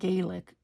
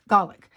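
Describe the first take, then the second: First: The first vowel sounds like the one in 'gay'. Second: The first vowel sounds like the one in 'gal'. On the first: This is how Irish people say it. The speaker calls it wrong. "It's not Gaelic because... the A says its name" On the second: This is the Scots way of saying it. The speaker calls it right. "she had mentioned that you pronounce it"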